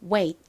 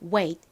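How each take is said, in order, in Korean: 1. 끝의 T는 약하고 거의 들리지 않습니다. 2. 끝의 T는 또렷하고 강하게 발음됩니다. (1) "들릴락 말락하게 발음이 되어서" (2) "wait가 아니라"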